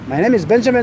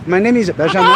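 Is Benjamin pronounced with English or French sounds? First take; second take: English; French. First: Benjamin is pronounced with English sounds. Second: Benjamin is pronounced with French sounds. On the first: The speaker calls it right. "quand on parle en anglais" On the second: The speaker calls it wrong. "Je vais pas dire"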